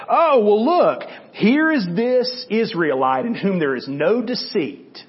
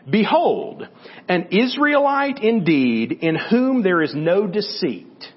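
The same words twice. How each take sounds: First: Higher, louder "Oh, well", then slow and dry; a knowing tease, slow and drawn out; mock-impressed sarcasm, higher pitch and louder at the start; sarcastic. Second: Said in the usual way. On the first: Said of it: "it's just got a little sarcasm in it". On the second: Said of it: "just got a little sarcasm in it".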